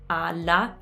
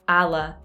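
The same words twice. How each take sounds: First: The L is held long, with open A's. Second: The L is short, with English-style A's. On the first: The speaker calls it right. "again with the double consonants" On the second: The speaker calls it wrong. "That's with one L and with the English A's"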